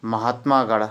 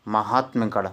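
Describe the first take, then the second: First: "महात्मागढ़" with long maa before the ending; wrong form demonstrated. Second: "महात्मगढ़" with short ma before the ending; correct form demonstrated. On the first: ("महात्मागढ़" में मा लंबा) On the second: ("महात्मगढ़" में म छोटा) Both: Shown as a demonstration. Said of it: "छोटा का डंडा नहीं आएगा".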